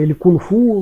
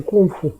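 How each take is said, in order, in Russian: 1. Ударение падает на последний слог. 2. Ударение не падает на последний слог. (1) "на кривом кантонском ... вот на последний слог делают ударение" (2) "На мандаринском это кунг-фу"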